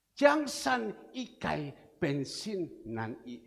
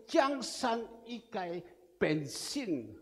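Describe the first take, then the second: First: Jiang San Ikai Pensin Nan I read whole, slowly and clearly; Chinese phrase read out. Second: Reading out Jiang San Ikai Pensin slowly in Chinese; Chinese phrase read out. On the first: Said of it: "Artinya apa?". (melafalkan Jiang San Ikai Pensin Nan I utuh dan pelan) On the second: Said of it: "Apa arti dari". (membaca Jiang San Ikai Pensin pelan dengan lafal Mandarin) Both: Shown as a demonstration.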